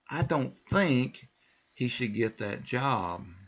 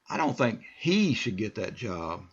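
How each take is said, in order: First: The stress is on the word think. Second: The stress is on the word he.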